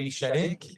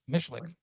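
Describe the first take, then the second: First: The name is said the French way. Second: The name is said the English way.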